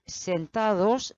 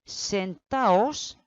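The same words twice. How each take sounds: First: Sentados with the d fully said; wrong form. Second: Sentaos with no d; correct form. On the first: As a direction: say sentados, pronouncing the d clearly. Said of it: "no vamos a decir". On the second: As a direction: say sentaos, dropping the d. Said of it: "forma correcta". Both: Shown as a demonstration.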